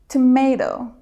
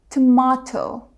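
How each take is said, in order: First: It is said with an American pronunciation. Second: It is said with a British pronunciation. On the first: "Americans say" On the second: "but British speakers say"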